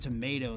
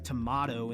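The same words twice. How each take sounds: First: Tomato is said with an American pronunciation. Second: Tomato is said with a British pronunciation. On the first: "in the U S" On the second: "in the U K"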